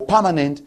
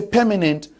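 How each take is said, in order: First: "permanent" with an a-like first vowel, PAH-ma-nent; second regional pronunciation. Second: "permanent" with an e-like first vowel, PEH-muh-nent; first regional pronunciation. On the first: Panelist contrasting regional accents, a-vowel pronunciation of "permanent". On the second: Panelist contrasting regional accents, e-vowel pronunciation of "permanent". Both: Shown as a demonstration. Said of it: "however they say it, whether you say".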